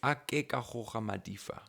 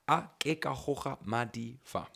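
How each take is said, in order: First: Madi and fa run together as one word. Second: Madi and fa are said as separate words.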